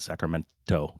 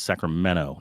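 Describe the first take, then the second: First: The T sound in the middle is pronounced. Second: The T sound in the middle is dropped. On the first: This shows the speaker is not from there. "not Sacramento" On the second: This is how locals say it. "They don't do the T"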